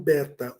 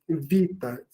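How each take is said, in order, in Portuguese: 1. A palavra começa com som de B. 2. A palavra começa com som de V. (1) "O beta é do grego antigo" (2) "em grego o B se lê como V"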